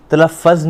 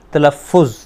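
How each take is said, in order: First: तलफ़्फ़ज़ with a doubled f, as talaffaz; wrong form. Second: तलफ़ुज़ said clearly as ta-la-fuz; correct form. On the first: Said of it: "नहीं कहना". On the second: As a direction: teach तलफ़ुज़ with a short u and single f. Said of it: "तलफ़्फ़ज़ नहीं कहना". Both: Shown as a demonstration.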